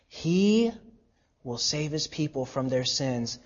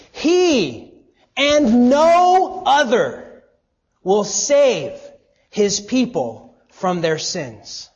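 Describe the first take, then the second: First: Said in the usual way. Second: "He" and "and no other" hit much higher and louder, slowed; stress on He. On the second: Shown as a demonstration. Preacher showing the congregation the Greek emphasis on "He". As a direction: lean hard on "He and no other". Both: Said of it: "the "he" here in the Greek is in the emphatic position".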